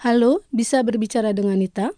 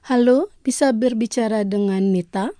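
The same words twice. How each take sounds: First: The same phrase rattled off fast; quicker repeat. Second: Said in the usual way. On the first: Shown as a demonstration. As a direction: run the phrase through quickly the second time. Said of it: "deux fois". (répété rapidement) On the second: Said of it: "je vais prononcer lentement".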